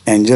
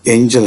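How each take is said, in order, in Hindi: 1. पहला स्वर सादा है, इसमें कोई फिसलन नहीं। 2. पहला स्वर 'ay' की तरह फिसलता है। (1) "एंजल नहीं" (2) "बल्कि ये एंजल है"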